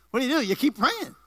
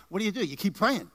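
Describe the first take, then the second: First: Higher, driving preacher's refrain; emphatic preaching. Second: Said in the usual way. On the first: Real, not acted. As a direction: hammer it home to the congregation.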